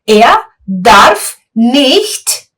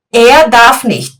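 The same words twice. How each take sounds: First: Drawn out very slowly, word by word; very slow demo. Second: Said in the usual way. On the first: Shown as a demonstration. Teacher isolates the phrase slowly for students. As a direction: stretch each word for the class. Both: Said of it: "Er darf nicht laut sprechen".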